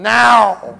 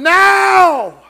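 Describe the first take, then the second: First: The word is said at normal loudness. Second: The word is shouted loudly.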